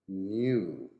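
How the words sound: It is said in a British accent. "new in British English"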